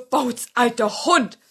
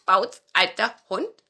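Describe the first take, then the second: First: Slow, louder fox greeting Bauz, alter Hund; sly old fox. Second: Louder, pleading question to Bauz alter Hund; eager nutcracker. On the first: Fox greets the old dog, slow fox voice. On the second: Nutcracker begs the dog, hopeful small voice. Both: Acted.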